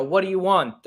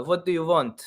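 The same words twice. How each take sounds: First: Said in the usual way. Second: Slavic accent. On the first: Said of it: "instead of saying that". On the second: Shown as a demonstration. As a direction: slip into a thick Slavic accent. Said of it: "they'll be like".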